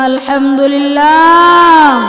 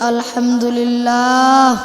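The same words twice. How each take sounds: First: It is said loudly. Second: It is said at normal loudness.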